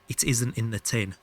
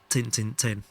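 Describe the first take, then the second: First: It is said fully in a standard accent. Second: It is clipped into a Yorkshire accent.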